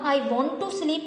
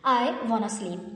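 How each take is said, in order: First: 'Want to' is said fully as two words. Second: 'Want to' is reduced to one word, 'wanna'. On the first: "I वांट टू sleep के बजाय" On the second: "बोलेंगे I वांट sleep"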